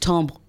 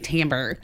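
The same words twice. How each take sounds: First: The word is said with a French pronunciation. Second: The word is said with an American pronunciation. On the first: "the French one is timbre" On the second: "Americans say timbre"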